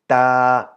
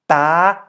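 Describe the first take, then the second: First: The pitch stays level at middle height. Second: The pitch is high across the syllable. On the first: "Middle tone is just the natural version" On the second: "To make it a high tone"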